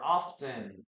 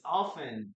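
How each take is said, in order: First: "often" with the T pronounced, off-ten; sounded T. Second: "often" with the T silent, off-en. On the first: Teacher shows learners the other variant, sounded T. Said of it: "you will also listen to this word as". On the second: Teacher models the preferred word for learners, silent T. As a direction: say "often" without any T sound. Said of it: "I prefer to say often". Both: Shown as a demonstration.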